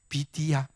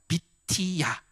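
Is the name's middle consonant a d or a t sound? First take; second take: d; t. First: The name is said with a soft d sound. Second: The name is said with a sharp t sound.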